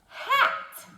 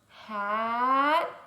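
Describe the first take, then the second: First: The word is said very fast. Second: The word is said slowly.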